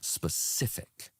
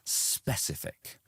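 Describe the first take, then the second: First: The stress is on the second syllable. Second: The stress is on the first syllable. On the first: The speaker calls it right. "the stress would be on the second part" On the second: The speaker calls it wrong. "you put the stress on the spe"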